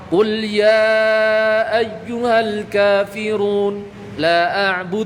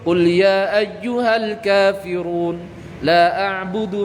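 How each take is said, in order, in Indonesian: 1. Bacaan mad itu dibaca empat atau lima harakat. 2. Bacaan mad itu dibaca dua harakat saja. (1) "maka bacalah empat atau lima" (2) "Setiap mad jaiz baca dua"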